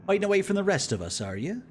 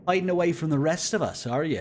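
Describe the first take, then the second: First: Raised, quicker character line. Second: Glib, teasing retake, raised and louder. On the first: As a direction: read it as a wry officer. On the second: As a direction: throw the line off glibly. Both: Acted. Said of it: "A little bit lib in his voice".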